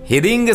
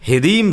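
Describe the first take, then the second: First: The word ends with an ng sound. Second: The word ends with an m sound. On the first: The speaker calls it wrong. "हिरिंग हिरिंग सही नहीं है" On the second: The speaker calls it right. "हिरीम सही है"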